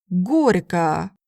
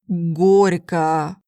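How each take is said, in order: No difference in how they are said.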